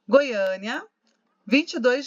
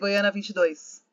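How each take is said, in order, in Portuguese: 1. Há uma pausa depois da primeira palavra. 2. As palavras são ditas juntas, sem pausa. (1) "Perceberam que eu dei uma respirada depois de Goiânia?" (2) "Não posso ler Goiânia vinte e dois"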